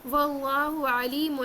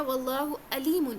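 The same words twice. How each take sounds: First: Slow واللہ علیم with a pharyngeal ain starting علیم; correct ain recitation. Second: واللہ علیم with a plain glottal a starting علیم; mistaken hamza for ain. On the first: Teacher modelling the verse meaning All-Knowing, slow throaty ain. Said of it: "عین نہیں پڑھا". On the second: Teacher demonstrating the misreading that changes the meaning, ain dropped. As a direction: say واللہ علیم without any throaty ain. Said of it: "بلکہ پڑھ دیا". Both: Shown as a demonstration.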